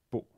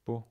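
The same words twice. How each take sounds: First: "bo" snapped shut with a glottal stop. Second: Said in the usual way. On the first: Shown as a demonstration. Teacher contrasting old and modern Hebrew, final glottal stop. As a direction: cut the O of "bo" off in the throat. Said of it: "You heard the glottal stop at the end". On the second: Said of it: "But now it's just bo".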